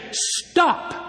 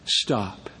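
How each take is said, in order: First: High, commanding Stop, the word Stop leaping up; sharp high command. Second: Low, soft Stop, the word Stop dropped down and hushed; quiet command. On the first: Jesus commands demons to stop. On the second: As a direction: say Stop softly with calm authority. Jesus quietly says stop again. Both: Retold or imitated.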